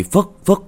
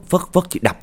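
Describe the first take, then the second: First: "phất, phất" thrown up high with a rising lift; high rising mimic. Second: "phất, phất" high then dropping on "đập"; high falling mimic. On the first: Narrator acting out the wife swinging mulberry branches, high rising. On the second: Narrator acting out the wife striking the walls, high falling.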